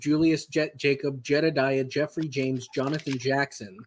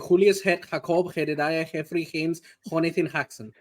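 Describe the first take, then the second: First: The names begin with a normal J sound. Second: The names begin with a breathy H sound.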